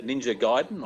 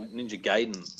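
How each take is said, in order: First: Gaiden said GUY-den; first pronunciation option. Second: Gaiden said GAY-den; second pronunciation option. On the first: Asking how a game title is pronounced, Gaiden as GUY-den. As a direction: say Gaiden with an "eye" vowel. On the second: Asking how a game title is pronounced, Gaiden as GAY-den. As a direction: say Gaiden with an "ay" vowel. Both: Shown as a demonstration. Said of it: "do you pronounce that".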